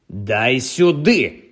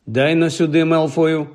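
First: Дуже повільний, грізно розтягнутий наказ; прореви вимогу, не надто гучно; ревіння. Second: Рівно, без крику; вимагай віддати, не зриваючись; спокійна вимога. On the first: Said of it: "ревнув Гаррі". (стримане ревіння) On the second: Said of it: "спокійно проказав Гаррі". (спокійний тон) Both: A narrator's reading.

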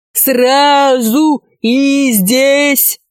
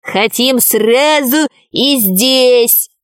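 First: High, very drawn-out mock yell; chorus of yelling. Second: Slow put-on dwarf voice; exclaiming dwarf. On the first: Werewolves echoing the dwarf, a drawn-out yell. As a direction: wail it slowly like a whole gang. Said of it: "но хором завопили оборотни". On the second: Dwarf demanding loot right away, exclaiming. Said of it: "воскликнул карлик Нос". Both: A narrator's reading.

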